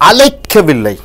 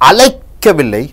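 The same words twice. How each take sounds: Both takes have the same delivery.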